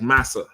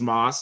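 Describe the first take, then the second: First: The name is said with two syllables. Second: The name is said as one short syllable. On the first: It is a southern form of master. The speaker calls it right. "This person is is like Massa" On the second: It sounds like a person's actual name. The speaker calls it wrong. "if you ain't paying attention, you're gonna think, you know, his name is Mas"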